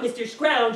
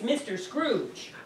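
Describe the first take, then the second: First: The name's vowel sounds like 'ow'. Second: The name's vowel sounds like 'oo'. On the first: The speaker calls it wrong. "It's not Mister Scrouge" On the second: The speaker calls it right. "it's Mister Scrooge"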